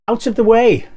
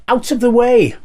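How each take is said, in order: No difference in how they are said.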